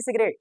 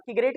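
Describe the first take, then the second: First: सिगरेट said with an opening S, "sigret"; soft S, not K, in सिगरेट; soft-c pronunciation. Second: सिगरेट said with an opening K, "kigret"; hard K in place of S in सिगरेट; wrong hard-c pronunciation. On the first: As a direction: start सिगरेट with a soft S sound. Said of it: "सिगरेट पढ़ा". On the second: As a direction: start सिगरेट with a hard K sound. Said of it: "इसको क्या पढ़ेंगे?". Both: Shown as a demonstration.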